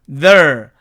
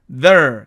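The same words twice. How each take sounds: The two takes are said the same way.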